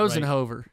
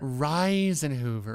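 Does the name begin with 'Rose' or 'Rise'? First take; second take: Rose; Rise. First: The first syllable sounds like 'rose'. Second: The first syllable sounds like 'rise'. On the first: The speaker calls it wrong. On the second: The speaker calls it right. "how do you pronounce it?"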